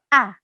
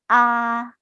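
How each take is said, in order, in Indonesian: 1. Nadanya jatuh tajam dan tegas. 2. Nadanya datar dan rata. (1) "seperti orang marah atau tegas" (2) "seperti kita se bicara seperti biasanya"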